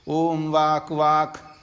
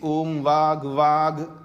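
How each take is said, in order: First: The word ends with a voiceless k sound. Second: The word ends with a voiced g sound. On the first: "का भी बोल सकते हैं" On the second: "गा भी बोल सकते हैं"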